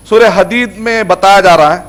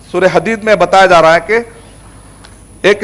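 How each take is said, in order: First: Said in the usual way. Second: Slowed down, each word laid out; teacherly slow emphasis; slow, deliberate repeat. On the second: Shown as a demonstration. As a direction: spell it out slowly for the class. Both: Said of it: "repeated more slowly".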